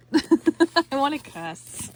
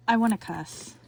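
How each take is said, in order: First: Slow, laughing, giggly repeat. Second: Said in the usual way. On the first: Real, not acted. Crafter laughing to viewers, giggling it out. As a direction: laugh it out, stretched.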